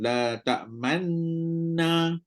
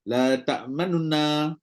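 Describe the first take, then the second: First: The n sounds merge into one nasal, lips rounded. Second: A faint short 'u' separates the two n sounds. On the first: "masa man dengan na tu dengung apa muncungkan" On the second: "Dia jadi satu per tiga harakat kan"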